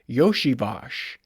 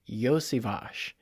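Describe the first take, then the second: First: The name begins with a 'Yosh' sound. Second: The name begins with a 'Yos' sound. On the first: The speaker calls it wrong. "They all say Yoshivash. Like, that's not how you say it" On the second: The speaker calls it right. "It's Yosivash"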